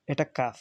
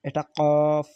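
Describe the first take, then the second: First: Said in the usual way. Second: "কফ" said deep from the back of the throat, a bit louder; deep qaf sound. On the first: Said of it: "এটা normal উচ্চারণ হবে". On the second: Shown as a demonstration. Teacher contrasting the two letters for students, deep throaty কফ. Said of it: "মানে deeply উচ্চারণ হবে".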